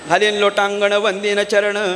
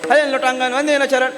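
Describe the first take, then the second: First: The line is said slowly and deliberately. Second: The line is rushed through quickly. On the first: The speaker calls it right. "सावकाश म्हणा ना" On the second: The speaker calls it wrong. "इतकी घाई का करतात हो?"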